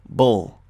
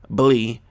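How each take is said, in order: First: A short uh sound comes before the L. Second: The syllable ends with a long ee sound. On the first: The speaker calls it right. "It's like" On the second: The speaker calls it wrong. "This is not how we pronounce them"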